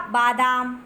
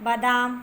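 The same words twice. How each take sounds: First: बादाम with a long first "baa"; बादाम pronounced "baa-daam"; correct form. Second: बादाम with a short first vowel, "buh-daam"; बादाम misspoken as "badaam"; incorrect form. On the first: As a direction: lengthen the opening vowel of बादाम. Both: Shown as a demonstration. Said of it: "तो शुद्ध रूप होगा".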